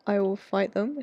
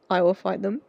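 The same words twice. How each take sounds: First: Said in the usual way. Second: Loud, fierce vow; loud and protective. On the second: Real, not acted. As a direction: promise to fight them. Protective outburst.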